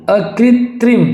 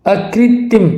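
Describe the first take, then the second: First: अकृत्रिम said high, as "akritrim"; correct "trim". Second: अकृत्रिम said high, as "akrittim"; missing second r. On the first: Teacher gives the right form, अकृत्रिम with "trim". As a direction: sound the tr in अकृत्रिम. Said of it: "ये सही होगा". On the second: Teacher shows the mistake, अकृत्रिम as "akrittim". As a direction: drop the last r in अकृत्रिम. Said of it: "अकृत्रिम नहीं". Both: Shown as a demonstration.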